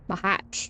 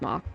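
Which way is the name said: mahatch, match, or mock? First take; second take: mahatch; mock. First: It is two syllables ending in a ch sound. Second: It is one syllable ending in a k sound. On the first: The speaker calls it right. "Maybe more like that" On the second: The speaker calls it wrong. "I first read it as mock, but that's wrong"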